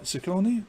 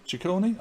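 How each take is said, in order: First: Ciccone said with a soft s, like sih-KOH-nee; unsure pronunciation. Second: Ciccone said with a ch sound, like chih-KOH-nee; unsure pronunciation. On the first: Host testing a name on viewers, unsure soft s. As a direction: try Ciccone starting with an s sound, questioning rise. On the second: Host retrying the name for viewers, ch sound. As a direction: try Ciccone starting with ch, questioning rise. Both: Shown as a demonstration. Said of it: "I don't know".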